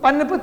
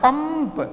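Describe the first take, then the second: First: The nasal is pronounced as an n sound. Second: The nasal is pronounced as an m sound. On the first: The speaker calls it wrong. "पनप तो नहीं बोलते ना" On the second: The speaker calls it right. "म आ रहा है"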